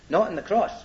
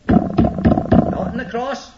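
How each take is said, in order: First: Said in the usual way. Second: Hushed, deliberate repeat for weight; slow whisper. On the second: Shown as a demonstration. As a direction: whisper it slowly, drawn out. Repeats phrase, second take slower and whispered.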